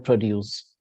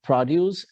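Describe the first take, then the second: First: Pro-DUCE, second syllable punched; "produce" as a verb, pro-DUCE; stress on second syllable. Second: PRO-duce, first syllable punched; "produce" as a noun, PRO-duce; stress on first syllable. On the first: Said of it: "accent on the second syllable". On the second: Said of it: "accent on the first syllable". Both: Shown as a demonstration.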